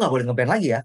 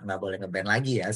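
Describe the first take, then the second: First: It is said harshly, like a confrontational threat. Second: It is said softly, like a calm discussion. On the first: It is a hostile order that invites a fight. "Kayak mau ngajak perang" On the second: It is a calm request open to discussion. "ini cara ngomong Koal nih udah halus loh"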